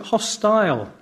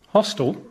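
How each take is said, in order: First: The ending is full, rhyming with 'tile'. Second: The ending is reduced, sounding like 'hostel'. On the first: "In Britain, we pronounce it hostile" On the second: "You mean like youth hostel?"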